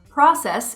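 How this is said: It has the American vowel pronunciation. "process in the United States"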